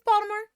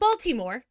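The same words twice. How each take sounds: First: The middle syllables are squeezed together. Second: Every syllable is pronounced fully and clearly. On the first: Locals say it this way. The speaker calls it right. "take some of the middle part out and mush it together" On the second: An outsider would say it this way. The speaker calls it wrong. "Not Baltimore"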